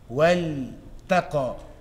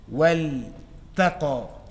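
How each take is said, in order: No difference in how they are said.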